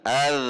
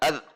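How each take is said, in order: First: The final z sound flows on continuously. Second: The final z sound is held and cut short. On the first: The speaker calls it right. "tetapi ada aliran az" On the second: The speaker calls it wrong. "Tidak az"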